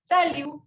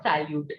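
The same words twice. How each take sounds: First: Salut said sa-LU with the T left silent; French salut. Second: Salute said the English way with the T sounded. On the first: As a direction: drop the final T in salut. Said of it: "T will be silent". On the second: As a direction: say salute with a clear final T. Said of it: "Not salute". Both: Shown as a demonstration.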